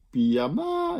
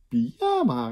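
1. De klemtoon ligt op de laatste lettergreep. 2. De klemtoon ligt op de middelste lettergreep. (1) "pyjama is weer gek" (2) "pyjama is iets normaler"

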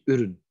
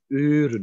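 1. De eerste klinker is kort. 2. De eerste klinker is lang. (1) "niet uren" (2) "Dan lees jij nog steeds met een lange klank"

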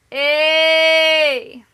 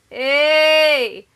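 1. Het woord wordt iets langer aangehouden. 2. Het woord wordt kort gezegd. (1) "één keer iets langer" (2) "twee keer kort"

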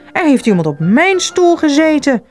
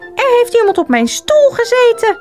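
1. Het wordt gezegd met een vrij diepe stem. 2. Het wordt gezegd met een hoge, pieperige stem. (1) "zei ze met haar iets minder zware stem" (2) "zei hij met zijn piepstemmetje"

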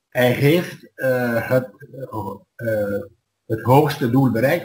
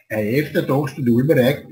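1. Het is in standaard Nederlands met de h-klanken. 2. Het is in het lokale dialect met weggelaten h-klanken. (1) "als we al zeggen in het algemeen Nederlands" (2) "Dan zeg ik"

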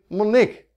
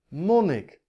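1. De klemtoon ligt op de laatste lettergreep. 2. De klemtoon ligt op de eerste lettergreep. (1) "of zeg ik monnik? Nee" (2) "de klemtoon zit niet op de laatste lettergreep"

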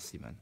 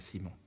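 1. Le nom est prononcé avec une prononciation flamande. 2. Le nom est prononcé avec une prononciation française. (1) "c'est un flamand, ... on prononce Simon" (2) "on prononce pas Simon"

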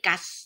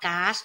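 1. สระออกเสียงสั้น 2. สระออกเสียงยาว (1) "ไม่" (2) "ออกว่า"

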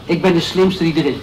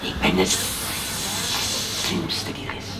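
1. Het wordt met een gewone, alledaagse stem gezegd. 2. Het wordt met een sluwe, slangachtige stem gezegd.

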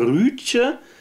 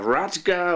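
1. Der Name hat ein gerundetes ü und ein weiches Ende. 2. Der Name hat ein offenes a und ein hartes g. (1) "sondern Rütje Hauer" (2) "oder Radger oder sonst was"

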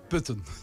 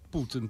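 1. El nombre se dice como 'Putten'. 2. El nombre se dice como 'Putin'. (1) "Es Putten" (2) "No es Putin, por favor"

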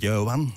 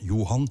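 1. De naam wordt op een Antwerpse dialectmanier gezegd. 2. De naam wordt op een standaard Nederlandse manier gezegd. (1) "als ik naar Antwerpen ga" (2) "bij mij is dat Johan"

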